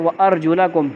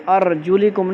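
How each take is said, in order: First: "ارجلکم" with an a after the lam, arjulakum; the corrected reading of "ارجلکم", la in place of li; correct vowel ending. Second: "ارجلکم" with an i after the lam, arjulikum; the mistaken reading of "ارجلکم", li in place of la; wrong vowel ending. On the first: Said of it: "بلکہ کیا ہے؟". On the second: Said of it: "نہیں ہے بلکہ کیا ہے؟". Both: Shown as a demonstration.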